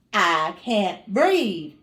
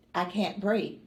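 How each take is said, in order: First: Slow, drawn-out I can't breathe; slow pleading. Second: Said in the usual way. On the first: Retold or imitated. To the nurse in labor, slow desperate plea. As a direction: stretch each word like it's hard to get air out.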